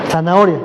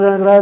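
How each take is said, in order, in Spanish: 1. La palabra se dice a velocidad normal. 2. La palabra se dice rápido, una y otra vez. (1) "Di zanahoria" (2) "Dilo otra vez, pero más rápido"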